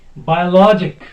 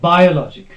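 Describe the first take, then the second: First: The stress is on the third syllable. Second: The stress is not on the third syllable. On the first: The speaker calls it right. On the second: The speaker calls it wrong.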